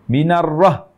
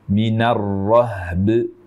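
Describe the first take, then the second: First: The final b has no echoing bounce. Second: The final b has an echoing bounce. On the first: The speaker calls it wrong. "ada sifat yang tidak diberikan di sini, yaitu sifat qalqalah" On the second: The speaker calls it right. "berikan hak huruf ba dengan sempurna"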